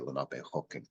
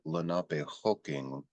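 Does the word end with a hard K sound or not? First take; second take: hard K; no K. First: The word ends with a hard K sound. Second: The word ends without a hard K sound. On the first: The speaker calls it wrong. "We don't pronounce that hard K on the end. We don't say Lenapehoking in our language" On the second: The speaker calls it right. "you hear Lenapehoking"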